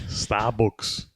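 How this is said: It is said in a Liverpool Scouse accent. "That's like fucking uh, Liverpool. A Scouser"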